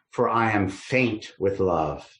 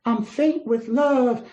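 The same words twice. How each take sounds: First: Said in the usual way. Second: High, drawn-out swooning Southern belle; faint away like a lovesick Southern belle. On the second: Acted. Lovesick maiden declaring she is faint with love, as a Southern belle. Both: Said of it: "imagine her as like a Southern belle".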